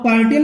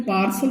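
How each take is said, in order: First: पार्टियल said as par-ti-yal, every letter sounded; पार्टियल read syllable by syllable, the t kept; wrong spelling-out pronunciation. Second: पार्सल with a soft sh-like s in place of the t; पार्सल said as par-shal, the ti gone; correct pronunciation. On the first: Teacher shows students the wrong way to say पार्टियल. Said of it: "अब पार्टियल नहीं बोलते". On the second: Teacher gives students the correct पार्सल. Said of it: "इसको बोलते हैं पार्सल बोलते हैं". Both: Shown as a demonstration.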